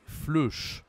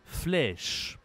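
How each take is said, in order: First: "fleuche" with a rounded eu vowel; wrong-word demo, euh in "fleuche"; missing grave accent. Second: "Flèche" with a long open è; corrected "Flèche", open eh sound; grave-accent è. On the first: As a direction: say "fleuche" as fluhsh, deliberately wrong. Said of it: "Si je n'utilise pas l'accent grave". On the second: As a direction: say "Flèche" as flehsh, vowel drawn out. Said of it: "Il faut mettre l'accent grave". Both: Shown as a demonstration.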